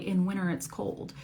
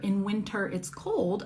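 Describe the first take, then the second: First: The T after the N is dropped. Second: The T after the N is clearly pronounced. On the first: "I might say" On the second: "instead of saying winter"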